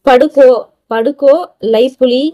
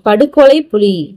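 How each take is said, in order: First: The phrase is broken in the middle of a word. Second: The phrase is broken at the word boundary. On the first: The speaker calls it wrong. "இது பாருங்க" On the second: The speaker calls it right. "But எப்படி படிக்கணும்?"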